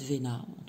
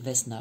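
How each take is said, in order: First: The s in the middle is silent. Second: The s in the middle is pronounced. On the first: "Ça se dit peut-être Vena" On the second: "je prononce toutes les lettres"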